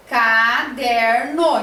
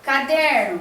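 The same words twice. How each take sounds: First: "caderno" drawn out very slowly, ca-der-no; syllable by syllable. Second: Said in the usual way. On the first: Shown as a demonstration. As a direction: stretch "caderno" into three clear beats. ("caderno" bem devagar, separando as sílabas) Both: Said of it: "cada uma, é, fica na sua sílaba".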